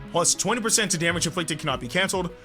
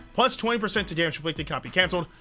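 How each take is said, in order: The two takes are said the same way.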